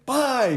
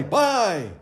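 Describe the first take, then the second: First: High, louder trader call; businessman calling out. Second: High, louder repeat of the call; businessman calling out. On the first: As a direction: bark the order with energy. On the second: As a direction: keep the trader's call going. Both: A narrator's reading. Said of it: "sometimes he said".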